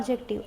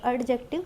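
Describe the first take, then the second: First: The d sound is left silent. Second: The d sound is clearly pronounced. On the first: The speaker calls it right. "हम यहाँ पे डी को pronounce नहीं करेंगे। यहाँ पे हम बोलते हैं एडजेक्टिव" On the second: The speaker calls it wrong. "एडजेक्टिव नहीं बोलते हैं।"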